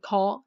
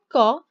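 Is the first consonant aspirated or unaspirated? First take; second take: aspirated; unaspirated. First: The g is released with a puff of air. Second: The g is released without a puff of air. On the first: The speaker calls it wrong. "So don't say go, no" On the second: The speaker calls it right. "this one doesn't use any air"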